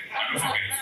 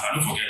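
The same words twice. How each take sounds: First: Breathy mock-menacing whisper; eerie stage whisper to rattle rivals; spooky whisper. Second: Said in the usual way. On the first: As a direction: whisper it to psych out the poets. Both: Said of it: "trying to psych you out".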